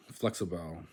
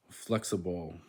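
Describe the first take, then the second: First: "flexible" ending in a full "bal"; last-syllable stress. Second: Said in the usual way. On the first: Shown as a demonstration. Learner trying the Spanish, "flexible" with stressed "bal". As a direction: open out the end of "flexible". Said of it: "the stress is on the last syllable". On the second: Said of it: "in English".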